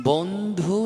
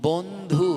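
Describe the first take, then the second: Both takes have the same delivery.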